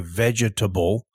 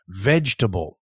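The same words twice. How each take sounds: First: The ending sounds just like the word table. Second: The ending is reduced, unlike the word table. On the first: The speaker calls it wrong. "it is not pronounced like table. We don't say vegetable" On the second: The speaker calls it right. "We say vegetable"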